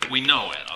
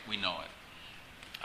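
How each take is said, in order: First: "we know it" said loud and falling; loud declaration before the hushed echo; loud first take. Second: Soft, slow, breathy repeat of the phrase; quiet repeat. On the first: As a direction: hit "we know it" loudly with a falling close. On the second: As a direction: drop to a slow near-whisper on We know it. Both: Shown as a demonstration.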